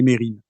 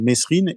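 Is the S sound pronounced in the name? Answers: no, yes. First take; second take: no; yes. First: The S sound is left out entirely. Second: The S sound is pronounced in the middle. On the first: This is the version the family itself uses. The speaker calls it right. "la famille, les proches, hem et et et Jacques Mérine lui-même disent Mérine" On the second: This is the version used by the media and police. The speaker calls it wrong. "qui est un peu celui des des médias et du des policiers"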